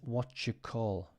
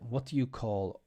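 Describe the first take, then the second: First: "Do you" blends into one sound like "jew". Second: "Do you" is said as two full words.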